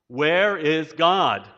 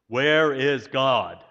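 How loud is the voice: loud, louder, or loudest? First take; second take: louder; loud. First: It is said more sternly and louder. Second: It is said sternly at moderate volume.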